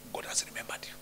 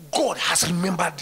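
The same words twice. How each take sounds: First: Hushed whispered reassurance. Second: Loud firm proclamation; shouted declaration. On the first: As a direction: whisper it intimately. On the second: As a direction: shout it to the congregation. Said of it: "repeated as whisper". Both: Shown as a demonstration.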